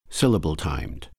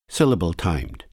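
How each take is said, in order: Both takes have the same delivery.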